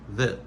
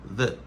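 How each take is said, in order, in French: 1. Le mot est prononcé sous une forme réduite. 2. Le mot est prononcé sous une forme réduite.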